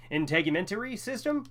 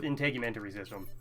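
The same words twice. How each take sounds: First: "integumentary system" tried out as a rising question; unsure attempt. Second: Said in the usual way. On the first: Real, not acted. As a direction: sound out "integumentary system", pitch climbing doubtfully. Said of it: "I don't know how to pronounce it". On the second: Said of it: "I'll go with".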